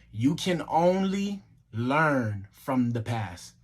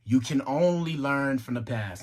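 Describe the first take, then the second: First: Very slow, words drawn out and spaced apart; deliberately slow. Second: Said in the usual way. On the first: Shown as a demonstration. Speaker repeating the lesson for listeners, deliberately slow. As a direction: say it slowly, word by word. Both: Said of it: "I'm gonna say it slow again".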